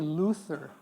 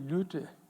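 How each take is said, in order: First: Luther is said the American way, with th. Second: Luther is said the German way, with t.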